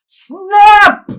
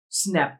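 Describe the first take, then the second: First: "Snap!" yelled much higher and louder; freaking out. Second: Said in the usual way. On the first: Retold or imitated. Telling friends how he panicked over the buzzing broken drone, yelling. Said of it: "I'm literally freaking out".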